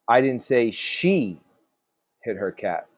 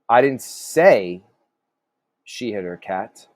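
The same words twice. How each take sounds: First: The stress falls on the word she. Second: The stress falls on the word say. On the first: Someone else hit the cat. "So maybe somebody else did" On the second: The speaker implied it without saying it. "So maybe you kind of implied it"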